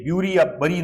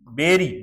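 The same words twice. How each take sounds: First: ब्यूरी and बरी said as the mistaken "byoori" and "bari"; teacher shows how ब्यूरी या बरी should not sound; wrong pronunciation. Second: बेरी said as "beri", short e like in bed; teacher gives the right form बेरी, beri with e as in bed; correct pronunciation. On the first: Teacher warning students against the wrong ब्यूरी, बरी. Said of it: "नहीं होता". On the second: Teacher correcting students' pronunciation, clear correct बेरी. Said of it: "ब्यूरी या बरी नहीं होता". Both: Shown as a demonstration.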